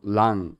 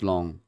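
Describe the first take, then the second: First: The vowel sounds like 'ah'. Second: The vowel sounds like 'oh'. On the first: The speaker calls it right. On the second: The speaker calls it wrong. "not long"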